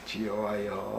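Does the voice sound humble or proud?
humble. It is said quietly and meekly, subdued. The speaker feels broken and humbled. "고개 푹 숙이고"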